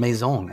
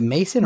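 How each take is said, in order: First: Maison said French-style, stressed on the end; fancy French pronunciation. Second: Mason said the plain English way; English pronunciation. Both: Shown as a demonstration. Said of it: "I like Maison 'cause it sounds fancy".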